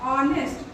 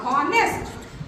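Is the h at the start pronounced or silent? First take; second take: silent; pronounced. First: The word begins directly with a vowel sound. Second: The word begins with an audible h sound. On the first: The speaker calls it right. "लेकिन हम इसको क्या पढ़ते हैं" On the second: The speaker calls it wrong. "अगर यच silent नहीं रहता तो ये क्या होता"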